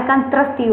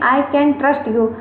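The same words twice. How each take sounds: First: Russian-style accent. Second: Slow Indian English, can said with a plain t; Indian accent. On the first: Teacher mimicking the foreign accent to warn students, mild imitation. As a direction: lean into a foreign t in trust. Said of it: "ये त्रस्त वाली होती है". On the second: Teacher showing students the Indian accent, slow Indian English. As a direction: say it the Indian way, slowly and evenly. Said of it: "आप लोग Indian accent में बोलेंगे". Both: Shown as a demonstration.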